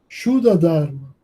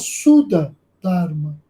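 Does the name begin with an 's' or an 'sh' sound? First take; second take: sh; s. First: The name begins with an sh sound. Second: The name begins with a plain s sound. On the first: This is the closer Sanskrit way of saying it. "Depois passou-se a falar Shuddha Dharma" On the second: This is the older, adapted way of saying it. "todo mundo falava Suda Dharma"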